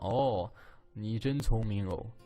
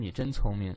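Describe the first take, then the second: First: It is said in a mocking, sarcastic tone. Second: It is said plainly and sincerely.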